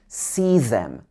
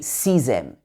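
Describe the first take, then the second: First: Them starts with a th sound. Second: Them starts with a z-like sound. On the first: The speaker calls it right. "It should be see them" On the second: The speaker calls it wrong. "It wouldn't be see them"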